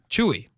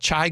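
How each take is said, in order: First: The name is two syllables, like 'chew-ee'. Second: The name is one syllable rhyming with 'eye'. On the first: The speaker calls it right. "that's what I've heard it pronounced" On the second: The speaker calls it wrong. "I thought it was Chai"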